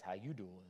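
It is said in an imitated character voice. It comes across as a pickup line rather than genuine concern. The speaker calls it wrong. "Just don't say it like Joey on Friends"

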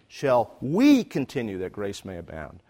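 The stress falls on the word 'we'. It is about us, not somebody else. "This is us, not somebody else"

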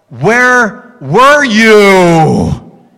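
It is asked in an upset, agitated tone. The parents were frantic and angry. The speaker calls it right.

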